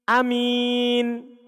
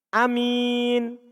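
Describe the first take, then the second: No difference in how they are said.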